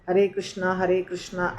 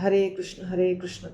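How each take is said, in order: First: The name ends in a long 'aa' vowel. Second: The name ends in a short final vowel. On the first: It names Draupadi instead. The speaker calls it wrong. "हरे कृष्णा नहीं बोलिए, नहीं तो वो द्रौपदी हो जाएगा" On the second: It names the god Krishna. The speaker calls it right. "आपको बोलना है हरे कृष्ण हरे कृष्ण"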